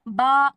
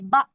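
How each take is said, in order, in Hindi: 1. स्वर लंबा खींचा जाता है। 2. स्वर अचानक झटके से काट दिया जाता है। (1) "ऐसे बा करके खींचेंगे नहीं" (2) "उसको हम झटका देंगे"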